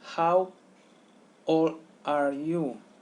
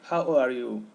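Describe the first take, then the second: First: The words are said separately. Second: The words run together into one unit.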